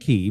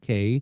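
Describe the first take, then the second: First: The vowel sounds like the one in 'see'. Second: The vowel sounds like the one in 'day'. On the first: This is how the place name is properly said. "but it is" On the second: This is how the band members say it. "We pronounce it K"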